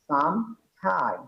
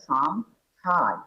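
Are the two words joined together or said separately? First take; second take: separate; separate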